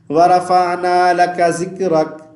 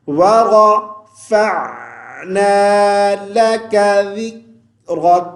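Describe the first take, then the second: First: ذِكْرَكَ with z and the ع of وَرَفَعْنَا weakened; the wrong reading with z; common mistake. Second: ذِكْرَكَ with a th sound, no echo on the kaf; correct reading. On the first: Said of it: "ذال کو زا پڑھ دیتے ہیں". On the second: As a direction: recite slowly, with a clear ع and ذ. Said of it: "کاف پہ قلقلہ نہیں کریں گے". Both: Shown as a demonstration.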